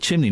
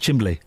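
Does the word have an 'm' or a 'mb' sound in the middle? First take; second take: m; mb. First: The middle is a plain m sound before n. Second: The middle has an mb sound before l. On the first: The speaker calls it right. "it's called a chimney" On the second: The speaker calls it wrong. "not a chimbley"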